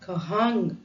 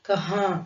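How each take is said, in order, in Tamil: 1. இந்த வார்த்தை முழு ng மெய்யெழுத்தில் முடிகிறது. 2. இந்த வார்த்தை மூக்கின் வழியாக வரும் உயிரொலியில் முடிகிறது. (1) "கஹான் கஹாங் அப்படின்னு சொல்லாம" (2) "மூக்குல இருந்து வர்ற சவுண்டு"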